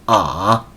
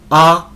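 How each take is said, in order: First: It is said in the third tone, dipping. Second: It is said in the first tone, high level.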